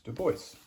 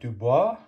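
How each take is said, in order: First: The name is said with an anglicized pronunciation. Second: The name is said with a French pronunciation. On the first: The speaker calls it right. "that's just not how he pronounced his last name, so it's" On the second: The speaker calls it wrong. "for those of you who study French, you might want to pronounce that"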